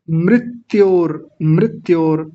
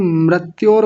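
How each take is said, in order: First: मृत्योर as mrit-yor, short i after r; correct मृत्योर. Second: मृत्योर as mrat-yor; mispronounced मृत्योर. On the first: Shown as a demonstration. Teacher modelling for pupils, careful mrit-yor in मृत्योर. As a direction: give मृत्योर a measured, clear ri. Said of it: "अब जो लोग". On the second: Retold or imitated. Teacher imitating people's error, mrat-yor for मृत्योर. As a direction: put a wrong a after r in मृत्योर. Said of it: "जो लोग मृत्योर बोल रहे हैं".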